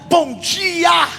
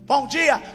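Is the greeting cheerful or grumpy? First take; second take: cheerful; grumpy. First: It is said cheerfully and warmly. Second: It is said grumpily and sarcastically.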